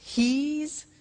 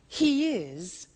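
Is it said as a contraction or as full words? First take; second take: contraction; full words. First: It is said as one contracted word. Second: It is said as two full words.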